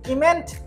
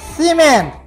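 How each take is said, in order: First: The word begins with a k sound. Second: The word begins with an s sound. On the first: The speaker calls it wrong. "এটা কি?" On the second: The speaker calls it right. "তাহলে সি এর উচ্চারণ হবে স।"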